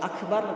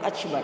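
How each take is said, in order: First: It is said with standard Arabic pronunciation. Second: It is said with a Turkish-accented pronunciation. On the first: "ketika orang Turki mengucapkan akbar" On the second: "nanti jadi akbar"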